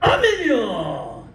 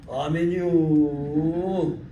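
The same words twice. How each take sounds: First: It is said in a Gyeongsang/Jeolla accent. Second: It is said in a Chungcheong accent.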